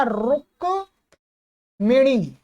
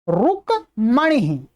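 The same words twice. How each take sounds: First: रुक्मिणी slowly split as ruk, then mi-nee; mi in the middle. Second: रुक्मणी slowly split as ruk, then ma-nee; ma in the middle. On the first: Teacher shows the variant spelling, रुक्मिणी split slowly with mi. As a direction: break रुक्मिणी after ruk, with an i after the m. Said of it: "ऐसा भी लिखा हुआ मिल जाएगा". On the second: Teacher shows the correct spelling, रुक्मणी split slowly with ma. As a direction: break रुक्मणी after ruk, with an a after the m. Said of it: "पर मैंने सही वाला, सटीक वाला लिखा है". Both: Shown as a demonstration.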